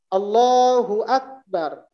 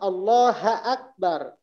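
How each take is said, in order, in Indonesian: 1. Huruf u setelah Allah dibaca. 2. Huruf u setelah Allah dihilangkan. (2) "Dibacanya ... Barisnya salah"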